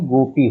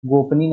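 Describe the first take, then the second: First: गोपी with no n, go-pee; correct -pee ending. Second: गोपनी with an extra n, gop-nee; wrong -ni ending. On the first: Teacher giving the correct word, गोपी ending in -pee. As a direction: end गोपी straight on pee. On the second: Teacher naming the error, गोपनी ending in -nee. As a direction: put ni at the end of गोपनी. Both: Shown as a demonstration. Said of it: "गोपनी नहीं".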